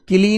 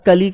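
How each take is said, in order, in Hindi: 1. इस अक्षर का स्वर 'i' है। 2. इस अक्षर का स्वर 'a' है। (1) "किली नहीं करना" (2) "कली करना"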